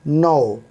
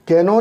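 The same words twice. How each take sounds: First: "नो" starting straight on N; silent K. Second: "कैनो" with K voiced before N; K wrongly sounded. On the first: Teacher models the correct reading, "नो" with silent K. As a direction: say "नो" as one syllable, no k before n. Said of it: "के तो silent हो गया". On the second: Teacher shows what not to read, "कैनो" with K sounded. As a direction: say "कैनो" in two syllables, starting on k. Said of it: "नहीं पढ़ेंगे". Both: Shown as a demonstration.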